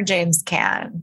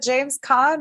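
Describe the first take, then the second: First: "Caan" with a short a, like "can"; "Caan" pronounced like the word "can". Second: "Caan" with an open ah, like "kahn"; "Caan" pronounced "kahn". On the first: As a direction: say "Caan" to rhyme with "man". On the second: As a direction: say "Caan" to rhyme with "lawn". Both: Shown as a demonstration. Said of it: "He can pronounce it Caan".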